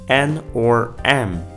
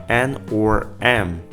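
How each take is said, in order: Both takes have the same delivery.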